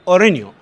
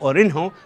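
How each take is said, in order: First: The h sound in the middle is silent. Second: The h sound in the middle is pronounced. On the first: The speaker calls it right. "لكن أورينيو الهاء سايلنت" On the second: The speaker calls it wrong. "البعض يلفظه أورينهو"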